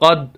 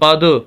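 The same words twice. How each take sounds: First: The final d is cut off abruptly. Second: The final d bounces with a slight echo. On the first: The speaker calls it wrong. "आवाज़ को वहीं रोक देना, ये दुरुस्त नहीं है" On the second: The speaker calls it right. "जो सही है कलकले की सूरत में"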